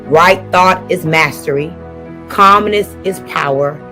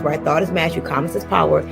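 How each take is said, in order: First: It is said slowly. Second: It is said at normal speed.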